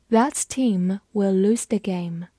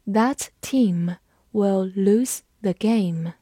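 First: Said in the usual way. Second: Very slow, phrase-by-phrase model reading; deliberate, unhurried demonstration with pauses; slow read-along. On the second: Shown as a demonstration. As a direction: space the words out for learners to follow. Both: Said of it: "跟着我慢读一遍".

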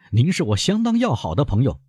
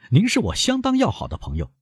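First: Said in the usual way. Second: Sneering, rising on 要, pitched higher; curled lip. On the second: A narrator's reading. Albert repeats to Beauchamp with a sneer, scornful rising tone. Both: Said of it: "撇起嘴唇又说".

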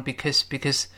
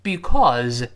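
First: "because" as "bikəz", schwa in the second syllable; weak-form "because"; weakened vowel. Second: "because" with a full "aw" vowel, drawn out; strong-form "because". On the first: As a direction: reduce "because" to a light quick word. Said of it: "o也弱化成倒一字的呃". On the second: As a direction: say "because" carefully, unreduced. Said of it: "在这里o也弱化成". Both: Shown as a demonstration.

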